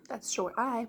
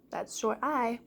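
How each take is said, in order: Both takes have the same delivery.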